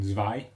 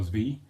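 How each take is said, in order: First: Zwei rhyming with eye; Zwei said German-style. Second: Zwei offered a second way; alternative Zwei pronunciation. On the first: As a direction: say Zwei as "zvy". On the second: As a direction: try the other reading of Zwei. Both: Shown as a demonstration. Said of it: "believe that's how it's pronounced".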